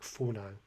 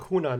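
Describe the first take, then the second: First: The word begins with an F sound. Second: The word begins with an H sound.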